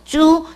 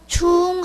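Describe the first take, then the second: First: Starts with a 'j'-like sound; pitch does not rise. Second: Starts with a 'ch' sound; pitch rises. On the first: It is the common sense of the character, as in important. "제트로 시작해요" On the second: It means repeated or done again. "이렇게 올라가는 듯한 이제 발음이 되는데"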